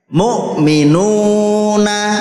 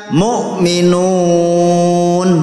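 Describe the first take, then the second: First: The word ends with a full vowel. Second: The word ends on a bare consonant. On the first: The reader continues without stopping. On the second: The reader stops at this word.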